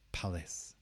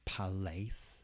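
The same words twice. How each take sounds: First: The stress is on the first syllable. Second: The stress is on the second syllable. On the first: The speaker calls it right. "the palace is stressed on the first part" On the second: The speaker calls it wrong. "So it's not palace"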